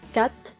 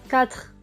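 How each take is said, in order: First: The word ends without an 'r' sound. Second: The word ends with an 'r' sound. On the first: This is the regional form. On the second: This is the standard form.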